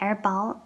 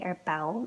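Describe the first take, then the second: First: The second word has an open 'ball'-like vowel. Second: The second word has a rounded 'bowl'-like vowel. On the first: This is the more common pronunciation. "I think is the more common pronunciation" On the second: Some speakers use this variant. "Some people say er bowl as well"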